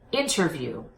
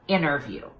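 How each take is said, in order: First: The T after the N is clearly pronounced. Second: The T after the N is dropped. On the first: The speaker calls it right. "I recommend that you pop the T. So I want you to say interview" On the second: The speaker calls it wrong. "instead of interview"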